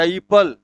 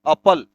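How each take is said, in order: First: एप्पल said ipəl, the corrected reading; right way. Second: एप्पल said as apəl, the flat wrong way; the mistaken एप्पल reading. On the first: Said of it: "या एप्पल". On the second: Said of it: "ऐसा मत लिख देना". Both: Shown as a demonstration.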